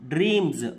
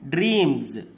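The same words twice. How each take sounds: Both takes have the same delivery.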